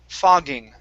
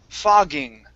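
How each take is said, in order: The two takes are said the same way.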